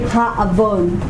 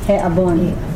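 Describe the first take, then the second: First: The article is pronounced with an a vowel. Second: The article is pronounced with an e vowel. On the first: The speaker calls it wrong. "You do not say ha avon" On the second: The speaker calls it right. "You change this to segol"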